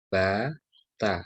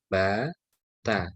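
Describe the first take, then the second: The two takes are said the same way.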